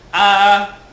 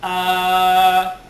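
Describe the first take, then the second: First: The vowel is held for two counts. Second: The vowel is held for four counts. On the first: "kung dalawa" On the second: "kung apat"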